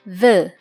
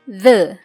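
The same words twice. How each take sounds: Both takes have the same delivery.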